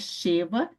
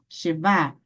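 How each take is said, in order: First: The stress is on the first syllable. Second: The stress is on the last syllable. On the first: The speaker calls it wrong. "não é Sheva" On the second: The speaker calls it right. "A sílaba tônica está no final"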